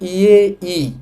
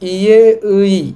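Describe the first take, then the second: First: The second syllable is pronounced as i. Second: The second syllable is pronounced as ui. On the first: "এই শব্দটাকে বলা যায় ইয়ে ই" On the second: "শব্দটার উচ্চারণ হবে ইয়ে উই"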